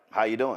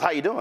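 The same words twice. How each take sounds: First: Said in the usual way. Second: A light, upbeat how you doing; chipper greeting. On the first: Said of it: "I was like". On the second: Retold or imitated. Charlie Kirk greeting the reporter, chipper. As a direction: toss it off brightly. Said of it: "he goes".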